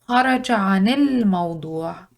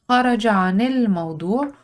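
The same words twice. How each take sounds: First: The words are blended smoothly together. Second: The words are blended smoothly together.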